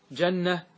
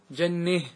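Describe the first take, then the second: First: Said in the usual way. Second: جنه ending leaned toward e; imala. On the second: Shown as a demonstration. Teacher demonstrates the imala at a pause for students, leaned ending. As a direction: say جنه with the final a bent to e. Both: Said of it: "أن تميل".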